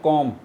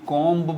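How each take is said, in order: First: The b sound is left silent at the end. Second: The b sound is pronounced at the end. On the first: The speaker calls it right. "ये सारे silent letters है" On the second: The speaker calls it wrong. "कॉम्ब बोलते हैं, ये भी गलत है"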